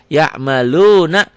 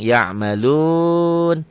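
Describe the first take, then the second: First: The word ends with a short vowel. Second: The word ends on a consonant. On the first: The reader continues without stopping. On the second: The reader stops on this word. "dihentikan jadi panjang"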